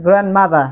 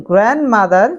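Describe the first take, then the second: First: 'গ্র্যান্ডমাদার' ending in open 'aa'; British pronunciation. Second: 'গ্র্যান্ডমাদার' with final r sounded; American pronunciation. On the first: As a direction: drop the last r of 'গ্র্যান্ডমাদার'. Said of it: "British গ্র্যান্ডমাদার". (British ধাঁচে 'গ্র্যান্ডমাদার', র ছাড়া) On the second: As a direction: end 'গ্র্যান্ডমাদার' on a clear r. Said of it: "American গ্র্যান্ডমাদার". (American ধাঁচে 'গ্র্যান্ডমাদার', র সহ) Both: Shown as a demonstration.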